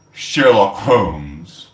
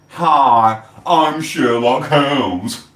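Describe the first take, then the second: First: Mock announcement. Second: Slow, drawn-out mocking greeting; mock Sherlock intro. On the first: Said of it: "they came up and went". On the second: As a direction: sneer the fake name slowly. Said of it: "why don't you use your own name".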